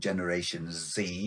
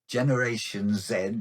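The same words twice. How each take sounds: First: The letter Z is said the American way. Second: The letter Z is said the non-American way.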